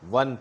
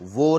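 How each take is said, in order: First: The word ends with a clear n sound. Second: The word ends in a vowel, with no n sound. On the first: The speaker calls it right. "वन पढ़ना" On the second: The speaker calls it wrong. "वो नहीं पढ़ना"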